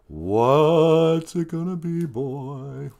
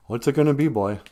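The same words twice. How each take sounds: First: Slow, higher, long-held sung notes; sung, stretch it out like a rock ballad line; sung lyric. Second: Said in the usual way. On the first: Acted. Singer asking for an answer from the song, slowly sung.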